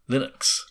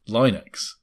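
First: The first vowel is short, like 'in'. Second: The first vowel sounds like 'eye', as in Linus. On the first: "apparently he has said that you pronounce it Linux" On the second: "I always thought it was supposed to rhyme with the creator, Linus Torvalds"

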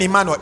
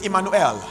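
First: The final syllable is reduced and unclear. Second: The final syllable is clearly said as 'el'. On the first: The speaker calls it wrong. "Emmanuel is not mentioned Emmanuel" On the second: The speaker calls it right. "it's Emmanuel"

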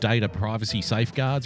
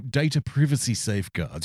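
First: It is said in an Australian accent. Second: It is said in a British accent. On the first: It sounds unofficial and hard to believe. "you wouldn't believe a fucking word I said because I'm an Australian" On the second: It sounds official and trustworthy. "everything sounds more official with a British accent"

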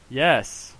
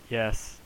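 First: It is said with clear excitement. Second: It is said with little excitement. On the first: The speaker calls it right. "I can say it more excitedly" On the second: The speaker calls it wrong. "did I not Sound excited enough?"

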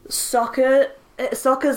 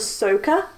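First: The name is said the way the cartoon says it. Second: The name is said the way the movie says it. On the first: This is the original pronunciation. "Sokka's name gets changed to" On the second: This is the changed pronunciation. "gets changed to Sokka"

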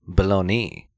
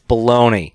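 First: The word is said in a fancy, Italian-sounding way. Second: The word is said in a plain, American way. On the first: It refers to the Italian city. "But it's funny how you can say it fancy" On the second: It refers to the processed sandwich meat. "In America, we're like, it's bologna"

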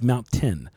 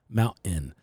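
First: The middle T is clearly pronounced. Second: The middle T is dropped or swallowed. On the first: The speaker calls it right. "it's Mount Tin" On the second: The speaker calls it wrong. "your generation has forgot the T"

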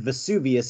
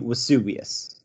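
First: The word begins with a V sound. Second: The word begins with a W sound. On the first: "if you were to say the word Vesuvius" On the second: "in Latin, all V's are pronounced as W's"

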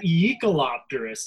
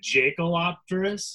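First: The name begins with a Y sound. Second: The name begins with a J sound. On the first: The speaker calls it right. "So why is it Yeek-a-lopterus? ... and it's ye" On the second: The speaker calls it wrong. "I thought for sure it was going to be a Jake-a-lopterus"

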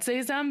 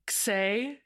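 First: The word begins with a z sound. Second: The word begins with a ks sound. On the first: The speaker calls it right. "I'm so glad you said Zazem" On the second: The speaker calls it wrong. "I always thought it was Xay, Xem. Like, I was like trying to make it go X"

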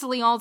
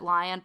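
First: It is said with a French pronunciation. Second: It is said like the English word lion. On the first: "But in French, it's Lyon" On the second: "Everything I found pronounced it lion, but that seems wrong to me"

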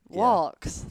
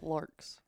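First: It is said with a British accent, no r. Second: It is said with an American accent, r pronounced.

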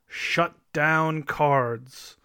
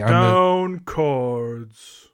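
First: It is said in a normal speaking voice. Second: It is said in a deep, low voice.

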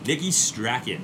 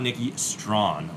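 First: The surname is said with two syllables. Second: The surname is said as one syllable. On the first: The speaker calls it right. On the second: The speaker calls it wrong.

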